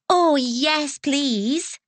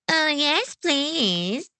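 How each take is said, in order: First: It is said sincerely and politely. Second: It is said in a mocking imitation.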